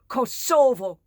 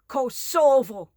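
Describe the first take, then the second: First: The stress is on the second syllable. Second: The same.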